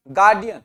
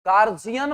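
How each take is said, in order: First: "गार्डियन" with a clear hard d; correct d sound. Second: "गार्जियन" with a j in the middle; common wrong j sound. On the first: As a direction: say "गार्डियन", firm d not j. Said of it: "मैं अब यहां बोल रहा हूं क्या". ("गार्डियन" में साफ़ ड की आवाज़) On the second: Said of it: "हमारे यहां पर इसको क्या बोला जाता है". ("गार्जियन" में ज की आवाज़, गलत उच्चारण) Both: Shown as a demonstration.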